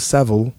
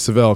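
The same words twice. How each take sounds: First: The name is said the Australian way. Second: The name is said the American way. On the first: "he's Australian. I think he's pronounced it Forrester Seville" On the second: "I say Seville because I'm from America"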